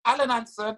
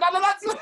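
First: Said in the usual way. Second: High, disbelieving repeat of "Alan Hansen"; "Alan Hansen" thrown back sky-high and louder; incredulous echo. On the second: Retold or imitated. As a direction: squeak the name back in disbelief.

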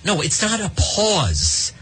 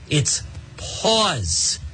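First: "not" hit hard, whole line slow and higher; stress on not. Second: "pause" said plainly and falling, like paws; plain correction. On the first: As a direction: punch "not" in a slow, raised correction. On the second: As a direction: drop "pause" flatly to finish the correction. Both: Shown as a demonstration.

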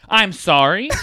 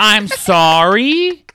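First: Quick, loud, higher indignant "sorry?" with a rise; angry apology. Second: Very loud, much higher, very slow "I'm sorry?" with a rise; furious drawn-out apology. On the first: A mad person apologizing with a quick, loud, rising "sorry?". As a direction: snap out "I'm sorry?" as a rising challenge. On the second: A mad person apologizing with a slow, very loud, rising "sorry?". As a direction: stretch out "sorry" as a seething challenge. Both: Acted. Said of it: "ever been so mad that you start apologizing".

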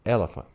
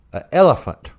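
First: "elephant" said low and soft; musing repeat. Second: "elephant" stated firmly, falling at the end; emphatic repeat. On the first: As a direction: try out "elephant" quietly, mulling it over. Retold listener mulls the new name. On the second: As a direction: repeat "elephant" as if it were obvious. Retold namer repeats the odd name. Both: Retold or imitated.

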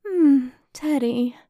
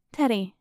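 First: Slow, drawn-out flirty coo. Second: Said in the usual way. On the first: Acted. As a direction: coo his name, teasing.

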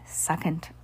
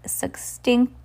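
First: "Succinct" said softly as "suh-SINKT"; corrected pronunciation. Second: "succinct" garbled as "SIX-tinkt"; stumbled mispronunciation. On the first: Reader correcting a hard word, softly sounded "Succinct". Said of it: "S U C C I N T". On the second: Reader stumbling on a hard word, "succinct" garbled. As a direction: trip over "succinct", saying it like "sick-stinked". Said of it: "that was what?". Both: Real, not acted.

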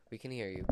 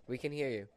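Both takes have the same delivery.

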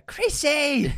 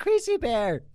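First: High, loud gleeful yell; excited shout. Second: High, loud joking yell; excited shout. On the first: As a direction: shout it with glee. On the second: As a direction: call it out with glee. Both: Real, not acted.

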